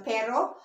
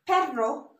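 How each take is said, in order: First: "pero" with one light tapped R; single-R pronunciation. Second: "perro" with a rolled double R; double-R pronunciation. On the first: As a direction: say "pero" with a quick single R flick. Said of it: "Pero is but". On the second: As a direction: trill the R in "perro", slowly. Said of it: "the words that has the double R". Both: Shown as a demonstration.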